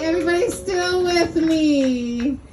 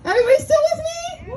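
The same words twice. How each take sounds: First: Said in the usual way. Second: High, fast crowd shout; hype shout. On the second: Shown as a demonstration. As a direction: pump up the crowd.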